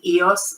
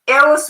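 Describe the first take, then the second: First: The word is said with English pronunciation. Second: The word is said with Greek pronunciation. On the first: "a lot of people are used to saying Eos" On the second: "Eos would be the correct Greek pronunciation"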